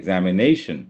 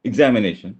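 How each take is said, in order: First: The stress falls on a later syllable. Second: The stress falls on the first syllable. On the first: The speaker calls it right. "അതിന്റെ stress വരുന്നത് ആദ്യത്തെ സിലബിളല്ല" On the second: The speaker calls it wrong. "It's not examination"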